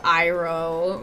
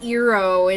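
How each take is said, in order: First: The name begins with an 'eye' sound. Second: The name begins with an 'ee' sound. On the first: This is how the original show says it. The speaker calls it right. "instead of Iroh" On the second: This is how the film said it. The speaker calls it wrong. "they said Eero instead of Iroh"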